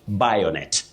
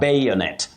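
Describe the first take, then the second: First: The first vowel does not sound like letter A. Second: The first vowel sounds like the letter name A. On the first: The speaker calls it wrong. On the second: The speaker calls it right. "the second letter in that word, that is A, takes its name as the sound"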